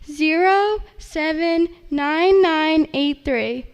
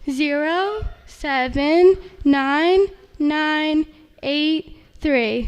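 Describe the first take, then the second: First: It is read at normal speed. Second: It is read more slowly.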